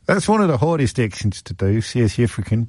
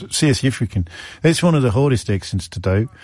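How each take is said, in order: First: South African accent drifting toward Australian; wobbly South African-Australian accent; attempted South African accent. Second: Hammed-up South African accent; a stab at South African; attempted South African accent. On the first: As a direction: have another go at South African. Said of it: "may have been the Australian one". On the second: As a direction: try a South African accent, clipping the vowels. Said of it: "or I do my fantastic Australian". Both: Shown as a demonstration.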